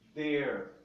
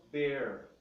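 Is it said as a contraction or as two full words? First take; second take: contraction; contraction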